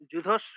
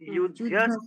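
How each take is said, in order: First: The word begins with a j sound. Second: The word begins with a y sound. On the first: The speaker calls it wrong. "যু যুধস্ব নয়" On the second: The speaker calls it right. "অন্তস্থ য"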